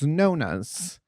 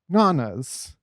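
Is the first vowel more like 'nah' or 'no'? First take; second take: no; nah. First: The first vowel sounds like 'no'. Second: The first vowel sounds like 'nah'. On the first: This is how Italians say the name. "I guess that's how Italians pronounce it" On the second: This is the speaker's own way of saying the name. "I would call it Nana's"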